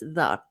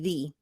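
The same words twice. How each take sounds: First: It is the form of 'the' used before consonants. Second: It is the form of 'the' used before vowels. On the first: "And if it starts with a consonant, then it's the" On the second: "if the the next word begins with a vowel, it's going to be the"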